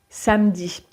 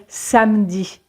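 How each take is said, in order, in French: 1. La voyelle e du milieu est complètement supprimée. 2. La voyelle e du milieu est complètement supprimée.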